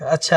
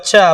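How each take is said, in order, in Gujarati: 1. તે ધીમેથી કહેવાય છે, શાંત સંમતિમાં. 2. તે જોરથી કહેવાય છે, તીખા સ્વરમાં. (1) "એકવાર તમે હામી ભરો છો" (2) "બીજી વાર જોરથી બોલો"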